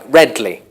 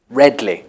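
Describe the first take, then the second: First: The word is squeezed into two syllables. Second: The same.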